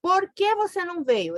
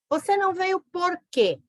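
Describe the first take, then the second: First: "Por que" opening the question, unstressed "que"; teacher's example with a light "que" at the start; question led by "Por que". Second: "por quê" at the end, "quê" stressed and falling; teacher's example with the stress on "quê"; stress on final quê. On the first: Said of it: "Esse é separado sem acento". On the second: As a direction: land hard on "quê" at the end of the question. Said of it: "Esse é com acento separado". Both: Shown as a demonstration.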